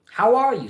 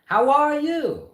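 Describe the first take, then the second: First: Higher and louder hello; a wealthy man calling out a greeting; brisk hammed-up businessman; hearty greeting. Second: Much higher, slow, drawn out; a pompous reply stretched long; hammed-up fussy gentleman; high slow greeting. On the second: Second answers greeting.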